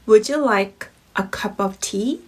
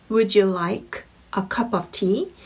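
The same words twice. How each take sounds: The two takes are said the same way.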